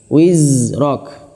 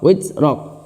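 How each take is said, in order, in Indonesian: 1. Bunyi r mengalir lancar. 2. Bunyi r dipotong pendek. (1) "Wizrok itu sudah mengalir" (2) "itu belum mengalir"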